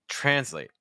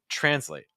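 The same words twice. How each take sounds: The two takes are said the same way.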